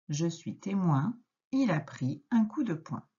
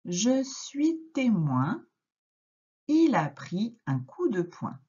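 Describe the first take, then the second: First: Said in the usual way. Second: Slow, higher, word by word reading; slow model reading. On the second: Shown as a demonstration. Teacher modelling slow word-by-word reading for a child. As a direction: read it like a beginner sounding it out. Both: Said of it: "on lit la première phrase ensemble".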